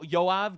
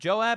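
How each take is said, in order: First: The name starts with a Y sound. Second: The name starts with a J sound. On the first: "he's pronounced Yoav in Hebrew" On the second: "I don't know how to pronounce him in English"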